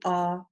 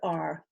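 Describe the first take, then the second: First: The vowel is long with no R sound. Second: The vowel ends with a sounded R. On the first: "more of an English, Australian, New Zealand accent" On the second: "even if you are American or Canadian"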